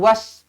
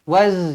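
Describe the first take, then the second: First: The word ends in a hissing s sound. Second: The word ends in a buzzing z sound. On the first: The speaker calls it wrong. "jangan was, nanti jadi huruf sin pula" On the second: The speaker calls it right. "Ini huruf zai, z"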